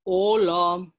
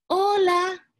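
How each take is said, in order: First: Louder, wolfish growl of a greeting. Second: Put-on high, bright girlish hello; a sweet little girl greeting. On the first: Acted. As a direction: greet her as the sly wolf. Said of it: "dijo el lobo". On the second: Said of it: "dijo ella".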